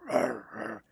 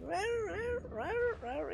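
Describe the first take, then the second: First: Imitated heavy dog bark. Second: High, thin little yaps, much higher than his voice; mock a useless little dog's bark, squeaky and high; imitated yappy dog bark. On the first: Imitating Merlin the dog's heavy bark for viewers, low loud woofs. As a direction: lower and much louder, a deep woofing bark. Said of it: "heavy, like". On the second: Imitating Rusty the dog's weak bark for viewers, high squeaky yaps. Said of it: "Rusty's bark is useless".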